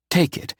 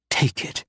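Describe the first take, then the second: First: Said in the usual way. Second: Breathy whispered plea; barely voiced, almost begging. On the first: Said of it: "take it (unvoiced repeat)". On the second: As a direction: take it whispered with no voice at all. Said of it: "Tears filled my eyes".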